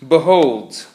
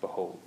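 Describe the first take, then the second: First: Loud, grand biblical reading. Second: Said in the usual way. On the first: Shown as a demonstration. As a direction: proclaim it like a prophet. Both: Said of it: "very biblical, right?".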